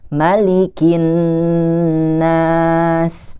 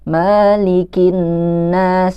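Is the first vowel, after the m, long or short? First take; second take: short; long. First: The vowel after the m is short. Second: The vowel after the m is long. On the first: The speaker calls it right. "Jadi dibacanya tetap pendek" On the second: The speaker calls it wrong. "membaca mimnya itu panjang ... itu salah"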